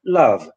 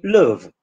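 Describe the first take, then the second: First: "love" with the open southern vowel; southern "love" as in London; southern English love. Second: "love" as northern "luv", vowel like "put"; northern English love. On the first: Teacher showing the south of England's "love". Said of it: "in the south of England, you say". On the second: Teacher showing the north's "love". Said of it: "in the north, it will be". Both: Shown as a demonstration.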